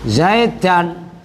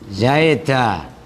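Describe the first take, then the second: First: The word ends with an n sound. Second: The word ends on an open vowel. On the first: The word is read on, not at a stop. "kok ro'a itu zaidan" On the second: The word is read at a stop. "menjadi zaid zaida"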